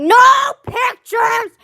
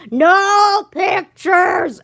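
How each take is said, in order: First: High, loud mock yell; sudden shout. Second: Very slow, loud booming shout; shout into a microphone. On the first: Student retelling the teacher's outburst, in a sudden high shout. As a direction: blurt it out like a startled teacher. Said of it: "and they're like". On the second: Retold or imitated. Student imitating her teacher yelling into his microphone, loud and slow. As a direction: boom it like a distorted mic blast. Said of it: "puts the microphone in his mouth and says".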